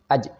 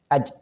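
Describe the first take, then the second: First: The j sound is broken and split apart. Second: The j sound is broken and split apart.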